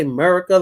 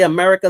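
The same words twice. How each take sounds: First: "America" without its first A; Texan pronunciation. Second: Said in the usual way. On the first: Shown as a demonstration. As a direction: say "America" Texan-style as "Merica", starting on the M. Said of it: "they say America". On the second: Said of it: "they don't say America".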